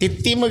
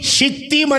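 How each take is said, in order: First: The name begins with a t sound. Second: The name begins with an sh sound. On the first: The speaker calls it wrong. "తిత్తీము కాదురా సామె" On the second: The speaker calls it right. "షీ అనండమ్మా"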